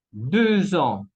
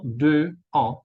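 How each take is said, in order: First: Deux ans joined with a z sound; liaison. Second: Deux ans with silent x and a gap; deux, then ans, slowly and unlinked; missing liaison. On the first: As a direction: link "deux ans" slowly as deu-zan. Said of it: "la X se cambia en Z". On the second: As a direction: split "deux ans", no z between. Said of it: "y no deux ans". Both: Shown as a demonstration.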